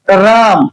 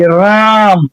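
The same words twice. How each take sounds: First: Said in the usual way. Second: राम drawn out in one long stretch; slow pronunciation. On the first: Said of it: "जैसे एक शब्द मैं बोलता हूं". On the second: Shown as a demonstration. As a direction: say राम slowly as one unbroken syllable. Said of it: "धीरे से बोलने का कोशिश कीजिए". (राम को धीरे से, एक ही बार में खींचकर)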